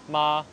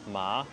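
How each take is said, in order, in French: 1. La syllabe a un ton haut et plat. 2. La syllabe a un ton montant.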